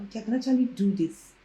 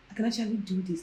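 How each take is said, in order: First: Said in the usual way. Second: Much softer, "actually" murmured to herself; quiet echo. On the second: Retold or imitated. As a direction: repeat "actually do this" softly to yourself. Repeating the self-talk quieter.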